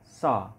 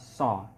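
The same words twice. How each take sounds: First: The s-sound is made further back, at the palate. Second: The s-sound is made against the teeth. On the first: The speaker calls it right. "Padahal dia so. Tidak ada kaitannya dengan gigi" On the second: The speaker calls it wrong. "dilakukan dengan cara keliru, yaitu dengan menggunakan gigi"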